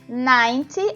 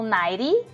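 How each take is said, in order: First: It is said with a British accent. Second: It is said with an American accent.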